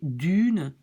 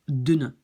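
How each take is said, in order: First: The vowel is long. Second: The vowel is short. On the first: The speaker calls it wrong. "un long U" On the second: The speaker calls it right. "je rajoute un N"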